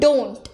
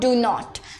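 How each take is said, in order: First: It is said as one contracted syllable. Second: It is said as two separate full words. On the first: The speaker calls it right. "ये सुनने में ज्यादा बेहतर लगता है" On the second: The speaker calls it wrong. "इंस्टेड ऑफ"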